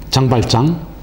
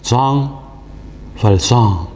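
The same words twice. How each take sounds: First: The name is said in a plain everyday way. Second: The name is said with a polished, careful pronunciation.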